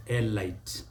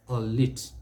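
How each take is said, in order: First: Elite as ee-LITE; common mispronunciation. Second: "a lit" said as ay-LEET; French-derived pronunciation. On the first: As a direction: rhyme elite with "light". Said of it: "Many people will say elite". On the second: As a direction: end "a lit" on a long "ee" plus T. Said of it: "Don't make that mistake". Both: Shown as a demonstration.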